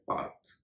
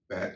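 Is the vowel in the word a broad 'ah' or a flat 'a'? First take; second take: broad ah; flat a. First: The vowel is a broad 'ah' sound. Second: The vowel is a flat 'a' sound.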